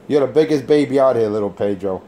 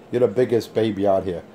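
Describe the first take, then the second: First: Louder taunt. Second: Said in the usual way. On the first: Real, not acted. Jeering at little Pedro over the radio, loud taunt. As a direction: punch "biggest" to rub it in.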